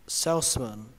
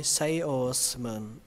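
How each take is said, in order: First: Said in the usual way. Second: "Salesman" stretched out slowly; slow careful salesman. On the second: Shown as a demonstration. ("Salesman" đọc từ từ) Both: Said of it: "cứ đọc từ từ thôi".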